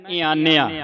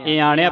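First: ਈਆਨਿਆ with a dental n. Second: ਈਆਣਿਆ with retroflex ṇ; retroflex N, wrong take. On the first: Teacher models the nanna sound for children, dental N. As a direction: say ਈਆਨਿਆ with the tongue tip forward on N. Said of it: "ਇੱਥੇ ਆਪਾਂ ਬੋਲਣਾ ਹੈ". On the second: Teacher shows the congregations' misreading, retroflex N. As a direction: say ਈਆਣਿਆ with the tongue curled back on N. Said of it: "ਇੱਥੇ ਨਾਣਾ ਲਾ ਕੇ ਉਚਾਰਨ ਕਰਦੀਆਂ". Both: Shown as a demonstration.

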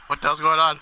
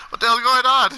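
First: Said in the usual way. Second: Higher, louder baffled outcry; louder, higher what the hell; loud exclaim. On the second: Real, not acted. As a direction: blurt it out in disbelief.

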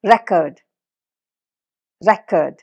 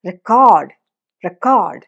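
First: record with the first part റെ hit; record, weight on റെ; stress on RE. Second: record with the second part code hit; record, weight on code; stress on CORD. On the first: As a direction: say record as RE-cord, noun. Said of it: "റെ, അതിനാണ് stress". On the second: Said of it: "ആ കോഡിനാണ് ആ stress". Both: Shown as a demonstration.

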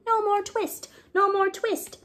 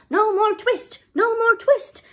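First: High mouse voices singing behind shutters; mice singing. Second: Very high, loud twittering shout; squeaky mice shouting the cat away. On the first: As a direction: sing it lightly through the shutters. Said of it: "little mouse voices singing". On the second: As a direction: shout it as tiny mice all at once. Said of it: "all began to shout at once in little twittering voices". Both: Acted.

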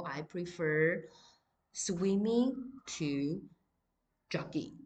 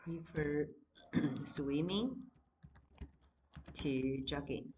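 First: Slow, deliberate dictation pace; slow classroom example sentence; slow example read. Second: Each word said on its own with long pauses; spaced-out repeated example; example read again. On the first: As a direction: read it out slowly for students to copy. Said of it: "so for example". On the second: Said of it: "老师也一样给你句子好了". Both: Shown as a demonstration.

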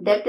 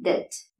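First: "ഡെപ്റ്റ്" with a P sounded before T; wrong pronunciation. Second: "ഡെറ്റ്" with silent B, DET; correct pronunciation. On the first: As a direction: say "ഡെപ്റ്റ്" as DEPT. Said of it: "അത് wrong pronunciation ആണ്". ("ഡെപ്റ്റ്" തെറ്റായി "പ്" കേൾപ്പിച്ച്) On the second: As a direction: say "ഡെറ്റ്" without any B or P. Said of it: "ഇത് correct ആയിട്ട് പറയേണ്ടത്". ("ഡെറ്റ്" ശരിയായി, "ബി" ഇല്ലാതെ) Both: Shown as a demonstration.

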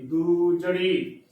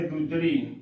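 First: ਦੂ ਜੜੀ slowly, with a long "doo"; correct long vowel. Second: ਦੂਜੜੀ with a short u, "dujjri"; wrong short vowel. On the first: Teacher giving the right reading, ਦੂ ਜੜੀ drawn out on doo. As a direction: stretch the oo in ਦੂ ਜੜੀ. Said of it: "ਦੂ ਜੜੀ ਉਚਾਰਨ ਕਰਨਾ ਹੈ". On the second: Teacher imitating congregations' error, ਦੂਜੜੀ as short "dujjri". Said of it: "ਉੱਥੇ ਔਂਕੜ ਲਗਾ ਕੇ ਉਚਾਰਨ". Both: Shown as a demonstration.

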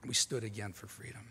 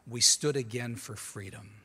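First: A hushed, reflective echo of "We stood again for freedom"; soft echo. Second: Said in the usual way. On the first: Acted. Repeating Reagan's words back to the audience, softer.

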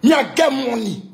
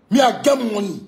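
First: Shouted boast, much higher and louder; boastful shout. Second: Repeated boast, higher and a bit louder. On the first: Ranting at a rival, a loud boastful shout. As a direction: yell it out to rub it in. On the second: Ranting at a rival, repeating the boast loudly. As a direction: hammer the boast home again. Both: Real, not acted.

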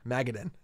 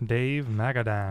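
First: Magadan stressed on the first syllable, MAG-uh-dun, ending reduced; correcting the stress. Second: Magadan with the last syllable full and stressed, MAG-a-DAN; wrong syllable stress. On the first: Shown as a demonstration. Correcting his co-host's reading of the card, first-syllable stress. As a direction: hit MAG and let "dan" fall away to "dun". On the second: Real, not acted. A collector announcing a card, Magadan stressed on the final syllable. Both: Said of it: "emphasis on the wrong syllable there".

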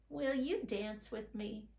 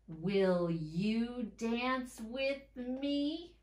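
First: Said in the usual way. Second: Slow, rising up on "me"; slow read, pitch rising to "me"; question rise. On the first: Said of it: "read the whole thing". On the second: Shown as a demonstration. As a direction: let "me" climb as a question. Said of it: "You heard my voice go up at the end".

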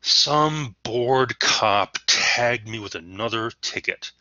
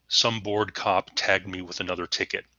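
First: Slow, loud and resentful, each word leaned on; resentful, defiant. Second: Said in the usual way. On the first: Shown as a demonstration. Teacher saying the line out loud to show tone, resentful. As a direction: spit out your resentment slowly and defiantly. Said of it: "this is kind of a resentful tone". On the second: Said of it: "if I were to say this out loud".

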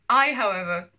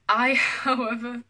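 First: Loud, emphatic villain-monologue retake; grand declaration. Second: Slow grand announcement cracked by a laugh; breaking into laughter. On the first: Acted. Vlogger retaking childhood villain monologue, grand declaration. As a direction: announce it forcefully, with no laugh. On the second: Real, not acted. Vlogger reading childhood villain monologue, laughing mid-declaration. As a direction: try to declaim it but laugh midway.

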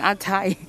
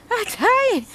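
First: Said in the usual way. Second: High-pitched, worn-out whine; tired whine. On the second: Real, not acted.

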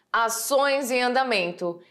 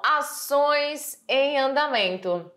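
First: Said in the usual way. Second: Slow, stressing "ações"; slow emphasis. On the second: Shown as a demonstration. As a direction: spell out "ações em andamento" slowly. (devagar, enfatizando "ações") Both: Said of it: "E temos aí essa questão".

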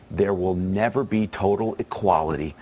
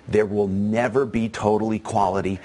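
No difference in how they are said.

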